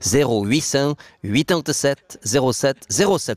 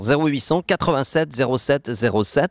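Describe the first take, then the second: First: The number is said slowly. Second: The number is said quickly.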